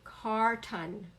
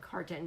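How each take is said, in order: First: The second syllable has a clear vowel sound. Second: The second syllable shrinks to an n sound. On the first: "It does say ton because it's the ah sound" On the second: "sometimes we kind of make this an n sound"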